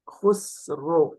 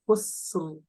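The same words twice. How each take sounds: First: The final r ends in a rounded 'ro' sound. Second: The final r ends clipped, without lip rounding. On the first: The speaker calls it wrong. "You are making like خسر. Ro. That ro is wrong" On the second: The speaker calls it right. "like you are making a break"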